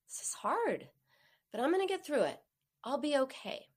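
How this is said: It sounds soothing and warm, like a hug.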